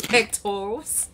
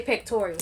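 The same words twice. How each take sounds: First: Pectorals said without the extra "ee"; standard pronunciation. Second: Pectorals said as "pec-TOR-ee-als"; own pronunciation. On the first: Admitting the real word, pectorals without the added "ee". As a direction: say pectorals the dictionary way, "PEK-ter-uls". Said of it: "I know what the real word is". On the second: Defending a word to a listener, pectorals said as "pec-tor-ee-als". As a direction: add an "ee" before the last syllable of pectorals. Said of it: "That's the way I say it". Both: Shown as a demonstration.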